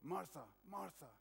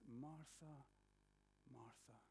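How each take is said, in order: First: It is said in a harsh, critical tone. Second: It is said in a tender, gentle tone.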